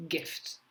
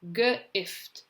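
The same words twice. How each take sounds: First: Said in the usual way. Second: G split off from "ift", raised pitch; sounding out. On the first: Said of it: "you're going to read the word". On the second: Shown as a demonstration. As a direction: say G, then ift, separately. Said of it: "say the letters as you're writing".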